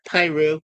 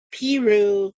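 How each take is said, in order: First: Piru said as PIE-roo; alternative pronunciation. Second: Said in the usual way. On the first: Shown as a demonstration. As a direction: say Piru with a long "eye" in the first syllable. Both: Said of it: "Some people might call it Piru".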